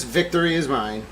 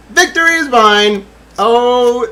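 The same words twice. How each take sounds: First: Said in the usual way. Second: Loud, high victory cry; triumphant cry. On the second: Real, not acted. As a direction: proclaim it like a conqueror. Triumphant exclamation.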